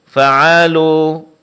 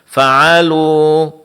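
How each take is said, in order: No difference in how they are said.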